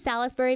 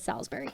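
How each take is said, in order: First: The middle 'i' vowel is clearly pronounced. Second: The middle 'i' vowel is left out. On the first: "I say Salisbury because there's an I in it" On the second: "He says Salisbury"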